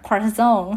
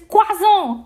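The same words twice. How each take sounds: First: It is said with an English pronunciation. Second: It is said with a French pronunciation.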